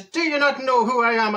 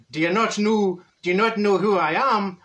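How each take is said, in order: First: Higher-pitched second go at Irish; insistent mock Irish accent; put-on Irish accent. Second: Put-on uncertain stab at an Irish accent; hammy, wobbly Irish accent; botched Irish accent. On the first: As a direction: lean harder into a stage Irish accent. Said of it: "That's an Irish accent". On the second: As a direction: attempt an Irish accent and miss. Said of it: "What accent was that?".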